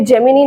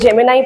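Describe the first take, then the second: First: The word ends with an 'ee' sound. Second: The word ends with an 'eye' sound. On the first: The speaker calls it wrong. "ये जेमिनी नहीं है" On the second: The speaker calls it right. "इसको जेमिनाई pronounce करेंगे"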